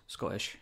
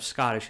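First: Scottish with a glottal stop for the TT; swallowed double T. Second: Said in the usual way. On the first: Shown as a demonstration. Giving an accent lesson, Scottish with T's swallowed. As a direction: skip the T's in Scottish, softer. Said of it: "Swallow your double T's". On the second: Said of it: "So instead of Scottish, it's Scottish".

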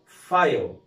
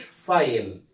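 First: "فايل" as one syllable, fayl; correct pronunciation. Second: "فايل" wrongly in two syllables, fa-yel; wrong pronunciation. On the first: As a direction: say "فايل" slowly with no vowel before the l. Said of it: "اسمه فايل". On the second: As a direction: say "فايل" with an extra e before the l. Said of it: "ما اسموش فايل". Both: Shown as a demonstration.

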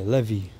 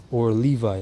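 First: Levi said LEH-vee, stress on the first syllable; Levi with a short e, LEH-vee; Levi as they say it. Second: Said in the usual way. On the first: Retold or imitated. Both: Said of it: "That's how they say it".

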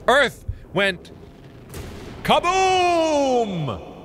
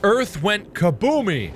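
First: Halting build to a long high KABOOM; hammed-up explosive announcement; dramatic boom. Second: Said in the usual way. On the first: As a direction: pause between words, then stretch out "kaboom!". Mock theory, dramatic second take.

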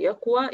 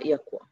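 First: يقوى with a long final aa, rising; full final vowel. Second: يقوى cut to a short final a; shortened final vowel. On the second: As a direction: trim the aa of يقوى to a brief fatha. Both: Shown as a demonstration. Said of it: "إحنا حذفنا حرف العلة".

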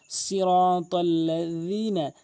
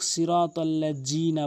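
First: Slow সিরাতাল্লাযিনা with tongue-tip th for য; সিরাতাল্লাযিনা, য as voiced th; correct dhal. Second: সিরাতাল্লাযিনা with j for য; plain j sound in সিরাতাল্লাযিনা; common mispronunciation. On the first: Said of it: "দাঁতের আগা থেকে উচ্চারণ হবে". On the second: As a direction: say সিরাতাল্লাযিনা with a hard jim. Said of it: "জালের জায়গায় জিম এনে". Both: Shown as a demonstration.

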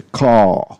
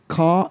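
First: CAR drawn out with a darker, rounded vowel; learner's questioned, long-voweled CAR; car, alternative version. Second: CAR with an open "ah" and no strong R; learner's open-vowel CAR; car, first version. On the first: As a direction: stretch CAR towards "kaw". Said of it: "or should we say it's a car". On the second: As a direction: say CAR as plain "kah". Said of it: "or should we say". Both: Shown as a demonstration.

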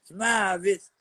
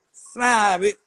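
First: Said in the usual way. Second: Barked order to smile; louder, higher smile command. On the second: Shown as a demonstration. Ordering a friend to smile, loud demand. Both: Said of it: "they can't do a smile".

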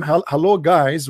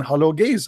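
First: "guys" said with the vowel of "eye", ɡaɪz; careful "hello, guys" with "guys" rhyming with "eyes"; intended guys. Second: "gays" said with the vowel of "day", ɡeɪz; "hello, gays" with "gays" rhyming with "days"; mistaken gays. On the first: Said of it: "instead of saying to them". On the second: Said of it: "I was writing down". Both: Shown as a demonstration.

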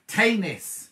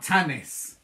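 First: Tanis with a long A, TAY-nis. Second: Tanis with a short flat a, TAN-is. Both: Shown as a demonstration. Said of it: "not Tanis".

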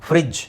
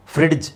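First: ಫ್ರಿಡ್ಜ್ said as frij, no d; silent D. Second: ಫ್ರಿಡ್ಜ್ with an audible d before the j; D pronounced. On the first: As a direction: drop the d in ಫ್ರಿಡ್ಜ್, just a j. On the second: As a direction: sound out the d in ಫ್ರಿಡ್ಜ್, frid-j. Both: Shown as a demonstration. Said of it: "ಅದನ್ನ ಫ್ರಿಡ್ಜ್ ಅಂತ ಹೇಳ್ಬೇಕು".

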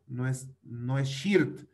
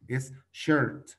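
First: "shirt" said slowly with an i sound; slow mistaken "shirt"; wrong pronunciation. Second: "shirt" said with an er sound, shert; teacher's corrected "shirt"; correct English. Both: Shown as a demonstration.

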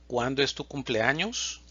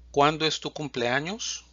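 The two takes are said the same way.

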